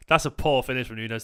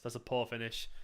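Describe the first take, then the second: First: Said in the usual way. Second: Repeated much softer, to himself; quiet aside. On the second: Real, not acted. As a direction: mutter it again under your breath.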